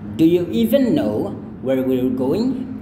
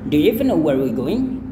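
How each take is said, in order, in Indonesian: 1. Kalimat ini diucapkan lambat. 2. Kalimat ini diucapkan cukup cepat. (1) "itu kalau kita pelan-pelan" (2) "Kalau agak sedikit cepat"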